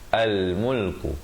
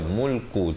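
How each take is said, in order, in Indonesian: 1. Kata ini dimulai dengan vokal 'a' sebelum l. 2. Kata ini dimulai langsung dengan bunyi m. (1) "Kena baca yang betulnya al-mulku" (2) "jangan baca mulku terus"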